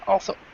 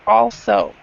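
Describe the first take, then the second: First: Only one syllable carries the stress. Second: Both syllables carry equal stress. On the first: The speaker calls it wrong. "not also" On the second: The speaker calls it right. "both syllables actually stress. You'd say also"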